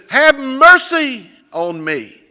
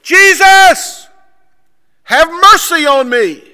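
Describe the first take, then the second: First: High, loud, drawn-out call; crying out. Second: Full high-pitched shout for help; screaming. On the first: Blind man to passing Jesus, crying out. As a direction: call out slowly for mercy. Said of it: "he begins to, to cry out". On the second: Blind man to Jesus over the crowd, screaming. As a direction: scream it as loud as possible. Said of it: "as loud as he can possibly scream". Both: Retold or imitated.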